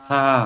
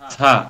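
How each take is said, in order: First: The first sound is a soft th sound. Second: The first sound is a hissing s sound. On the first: The speaker calls it right. "জিহ্বাটাকে উপরের দাঁতের আগার সাথে লাগাইতে হবে" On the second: The speaker calls it wrong. "এই থা বলার সময় আমরা ওনাকে ছা বলি"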